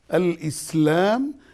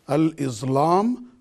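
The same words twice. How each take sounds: First: The middle consonant is an S sound. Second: The middle consonant is a Z sound. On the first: The speaker calls it right. "yes, al-Islam ... The seen is seen, not Z" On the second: The speaker calls it wrong. "no more al-Islam"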